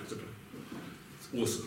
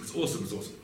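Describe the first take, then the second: First: Slow, breathy hush of wonder; awed whisper. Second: Said in the usual way. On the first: Real, not acted. Teacher marveling at the Gemara to his class, in an awed slow whisper.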